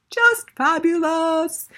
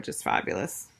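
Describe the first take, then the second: First: JUST FABULOUS sung out high, loud and slow; big drawn-out repeat of FABULOUS, pitched way up; emphatic gushing. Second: Said in the usual way. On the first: Real, not acted.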